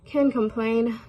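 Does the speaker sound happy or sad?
sad. It is said glumly, in a sad voice. Complaining has never changed anything, so there is no point. "So can't complain with a sad voice"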